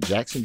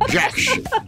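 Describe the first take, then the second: First: The name is said in a plain, ordinary voice. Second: The name is said in a rich, preacher-like voice. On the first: The speaker calls it wrong. "not Jackson" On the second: The speaker calls it right. "You know how them pastors with the juicy mouth?"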